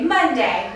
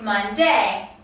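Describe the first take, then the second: First: The stress is on the first syllable. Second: The stress is on the second syllable.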